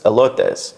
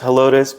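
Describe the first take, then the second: First: The name is said in the original Spanish way. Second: The name is said in the local English way. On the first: This is the original Spanish word meaning corn. "it's actually a Spanish word... It's elotes" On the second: This is how the town's residents say it. "if you live in that town, they pronounce it as Helotes"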